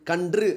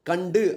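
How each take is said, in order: First: It ends with an nr sound and u. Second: It ends with a nd sound and u. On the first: This is the pure literary form. "தூய தமிழ் சொல்" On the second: This is the everyday spoken form. "பேச்சுவழக்கு சொல்"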